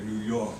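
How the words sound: The R sound in York is dropped. It sounds like a tough New Yorker. "dropping his R's a little more so you can say New York"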